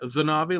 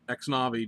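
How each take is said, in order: First: The word begins with a Z sound. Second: The word begins with a KS sound. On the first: "like the X is a Z" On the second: "just the way it looks"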